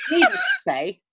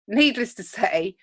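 First: High-pitched start, tickled by it; amused false start. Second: Said in the usual way. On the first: Real, not acted. Recapping a failed plan to co-host, amused. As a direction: launch in high, on the edge of laughter. Breaks up, then restarts the phrase.

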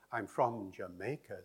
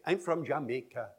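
First: Said in the usual way. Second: Jamaican syllable-timed beat, full weight on every syllable; Jamaican accent. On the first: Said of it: "does not say". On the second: Shown as a demonstration. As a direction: say it with an even Jamaican rhythm. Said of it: "They say".

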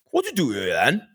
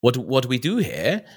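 First: Higher-pitched West Wales cameraman; West Wales accent. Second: Queen's English. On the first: Cameraman questioning the studio's owner, West Wales accent. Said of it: "very West Wales accent". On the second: Replying to the cameraman, a touch of Queen's English. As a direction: own question in Queen's English. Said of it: "go all Queen's English like that". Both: Retold or imitated.

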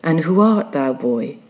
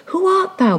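First: Said in the usual way. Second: Much higher, urgent demand; insistent question. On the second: Acted. Ahab demanding who the boy is, high and insistent. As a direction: pitch it right up and press for an answer.

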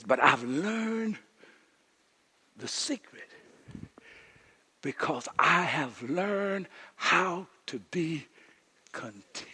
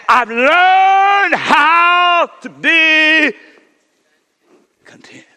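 First: Drawn-out hushed reading; slow quiet quote. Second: Learned how to be content, dragged out and shouted up high; a sudden preaching cry, stretched long; slow shouted quote. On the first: Preacher quoting Paul, slow and hushed. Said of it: "He says". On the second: Preacher to the church, slow shouted proclamation. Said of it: "So he said". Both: Retold or imitated.

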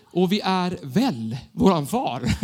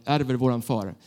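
First: Slow, laughing misheard "väl våran far"; misheard lyric. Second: Said in the usual way. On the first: Retold or imitated. Young worship leader recalling the lyric he misheard, laughing. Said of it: "jag tyckte vi sa så här". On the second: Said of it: "ni vet hur den gick".

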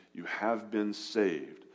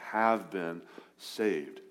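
First: Said in the usual way. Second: Slow, leaning hard on "have" in "have been saved"; "have" drawn out and stressed, the rest slow and even. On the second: Shown as a demonstration. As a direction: press "have" to mark the past tense, slowly. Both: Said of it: "Have been, past tense".

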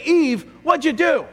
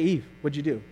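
First: Higher, louder accusing demand; stern rebuke. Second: Softer, lower, muted question; quiet question. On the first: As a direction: confront her sharply. God voiced in hypothetical rebuke. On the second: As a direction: say it under your breath. Contrasting quiet re-reading. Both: Pretend.

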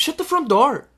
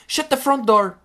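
First: High raised "Shut the front door." again with stress on "front"; prim substitute curse. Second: High raised "Shut the front door."; prim substitute curse. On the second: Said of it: "Não se pode dizer isto". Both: Shown as a demonstration.

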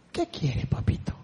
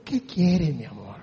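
First: Much lower and softer, gentle; soft tender father voice; tender reply. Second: Very low and soft, loving; hushed loving father voice; tender reply. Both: Retold or imitated. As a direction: answer like a patient father. God answering gently.

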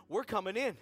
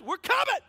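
First: Firm, controlled declaration with some volume; firm announcement. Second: High, booming demand; full shout. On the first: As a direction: state it firmly, no shouting yet. Coaching friend's line to hostess. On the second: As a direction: yell it so the whole room hears. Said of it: "I wanna hear it". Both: Acted.

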